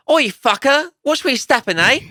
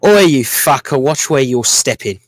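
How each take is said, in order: First: A bit louder, lightly rough London accent; mild rough London accent; Londonish accent. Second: A touch of a rough London accent, a bit louder; lightly done rough London accent. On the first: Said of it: "more Londonish". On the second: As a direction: have a go at a rough London halfling. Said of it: "Can I try to give it an accent?". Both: Shown as a demonstration.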